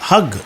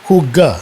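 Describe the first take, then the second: First: It has an uh vowel and ends in g. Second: It has an oo vowel and a final a. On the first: The speaker calls it right. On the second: The speaker calls it wrong.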